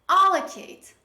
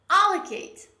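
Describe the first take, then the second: The two takes are said the same way.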